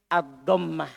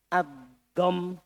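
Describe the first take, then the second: First: "ad-dhammah" slowly, voicing the final -mah. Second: "ad-dham" softer, closed on the m; ad-dham without ta. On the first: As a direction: sound out the full ending of "ad-dhammah". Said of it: "pakai ta". (ucapkan "ad-dhammah" pelan, lengkap dengan akhiran ta) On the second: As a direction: cut "ad-dham" off at m, no final vowel. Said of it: "Tidak pakai ta". (ucapkan "ad-dham" berhenti di m, tanpa ta) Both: Shown as a demonstration.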